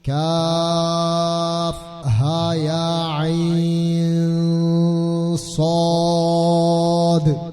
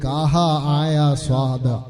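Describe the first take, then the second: First: Each letter is said by its full name. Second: The letters are run together as short syllables. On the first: The speaker calls it right. "അങ്ങനെയാ ഓതേണ്ടത്" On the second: The speaker calls it wrong. "ചില കുട്ടികൾ ഓതിയത്"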